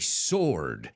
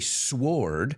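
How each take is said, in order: First: No W sound is heard after the S. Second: A W sound is heard after the S. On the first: The speaker calls it right. "I say sword. la W no lo pronuncio" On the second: The speaker calls it wrong. "I don't say sword"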